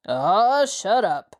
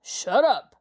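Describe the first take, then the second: First: A touch of a gruff shut-up; lightly voiced irritated gang leader; growled. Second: A hint of a rough snarled shut-up; lightly voiced gang boss cutting him off. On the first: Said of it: "the leader growled". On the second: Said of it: "the leader snarled".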